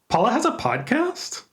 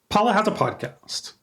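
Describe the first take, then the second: First: It is said as a question. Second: It is said as a plain statement. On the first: The speaker asks whether it is true. "I'm asking you to tell me whether it's true" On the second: The speaker claims it is true. "I'm asserting it. I'm giving you information"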